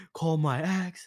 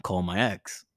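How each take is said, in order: First: Imitated tearful drunk plea; mock bawling. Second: Low mock-drunk mumble; low, half-conscious plea, imitated; drunken request. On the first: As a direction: whine it as if starting to bawl. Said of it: "I started bawling". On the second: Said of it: "I'm like".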